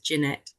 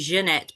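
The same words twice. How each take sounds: First: The name is pronounced the everyday English way. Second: The name is pronounced the French way. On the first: This is how people usually say the name. "but nobody ever does, so it's Jeanette" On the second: This is the name's original pronunciation. "It's actually a French name, so it should be Jeanette"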